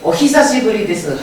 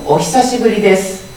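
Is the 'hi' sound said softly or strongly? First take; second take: strong; soft. First: The 'hi' sound is pronounced strongly and forcefully. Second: The 'hi' sound is soft and smoothly connected. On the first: The speaker calls it wrong. "히를 강하게 오히사시부리です 하면 좀 이상합니다" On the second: The speaker calls it right. "좀 더 부드럽게 연결해서"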